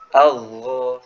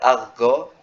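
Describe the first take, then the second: First: The sound flows through the doubled consonant. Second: The sound breaks off at the doubled consonant. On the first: The speaker calls it right. "Harusnya dia sifatnya ikhwah. Algo seperti itu" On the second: The speaker calls it wrong. "itu biasanya apa namanya rentan terputus suaranya. Uh, biasanya dibaca agho ya"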